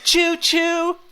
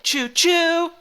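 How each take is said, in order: First: The stress is on the first chew. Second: The stress is on the second chew. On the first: "stress on the first chew" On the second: "stress on the second chew"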